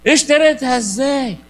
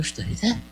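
First: اشتريتها ازاي said louder and slowly, falling hard; louder, slower, stunned disbelief; loud incredulous question. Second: Soft, rising double-take at اشتريتها; hushed disbelief on اشتريتها; quiet surprised question. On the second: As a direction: ask اشتريتها under your breath, rising, as if you misheard. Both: Retold or imitated. Priest retells disbelieving question.

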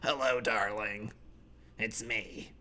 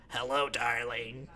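First: Soft, low "Hello, darling" barely there; whisper-croak it out of a ruined throat; croaky sick voice. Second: Low, soft, slow "Hello, darling" from a sick throat; croaky old voice. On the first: Sick gamer greeting someone online, soft croak. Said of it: "I have throat cancer". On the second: Forty-year-old gamer with throat cancer greeting online, soft croak. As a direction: rasp it like a man with throat cancer. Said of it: "this is me when I'm forty". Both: Pretend.

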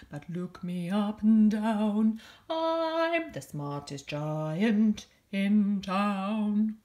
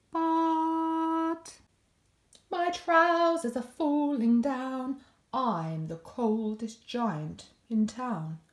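First: Sung, slow, loud, stretched-out boast; sung, draw out the last line like a grand finale; sung, triumphant slowed-down ending; proud sung finish. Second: Sung, slow, drawn-out lament that fades; sung, let the boast sag into a shivery complaint; sung, forlorn slowed finale; sadder sung ending. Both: A narrator's reading. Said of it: "singing to himself".

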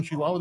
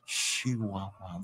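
First: Said in the usual way. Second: Very slow, low, hushed sultry imitation; sensual and sexy. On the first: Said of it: "That's how they talk". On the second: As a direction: stretch each syllable out seductively. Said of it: "They make it so sensual and sexy".

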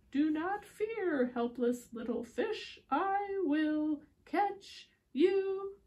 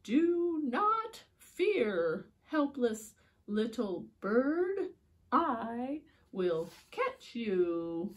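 First: Slow, grand rescuer voice, rising high at the end; drawn out, heroic promise; hero's call. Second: Slow, grand rescuer voice; drawn out, heroic promise; hero's call. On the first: Storyteller voicing the rescuer again, slow and grand. Repeat of hero line. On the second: Storyteller voicing a heroic rescuer, slow and grand. Character voice in read-aloud story. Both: A narrator's reading.

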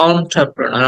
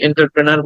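First: "এন্টারপ্রেনার" said as "on-tra-pro-na"; correct pronunciation. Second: "এন্টারপ্রেনার" starting "in-tar"; common mispronunciation. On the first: Teacher gives the English word, "এন্টারপ্রেনার" with "on-tra". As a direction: start "এন্টারপ্রেনার" on an open "aw". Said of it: "সেটা হচ্ছে". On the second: Teacher quotes our mistake, "এন্টারপ্রেনার" with "en-tar". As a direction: say "এন্টারপ্রেনার" with "-tar-pre-nar". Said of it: "সেটাই আমরা ভুল উচ্চারণ করি". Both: Shown as a demonstration.

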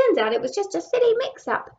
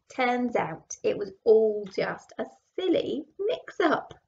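First: Higher, louder and quicker worm; little worm voice. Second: Said in the usual way. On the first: Acted. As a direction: pipe up as a tiny worm. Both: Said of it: "said a little worm".

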